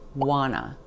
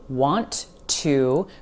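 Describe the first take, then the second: First: The words are reduced to one word, 'wanna'. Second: Both words are said fully and separately.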